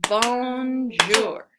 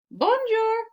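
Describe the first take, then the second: First: "Bonjour" split into two loud, even, clapped beats; "bon - jour", clap on each syllable; louder "Bonjour" tapped out syllable by syllable. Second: Said in the usual way. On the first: Shown as a demonstration. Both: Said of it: "let's clap bonjour".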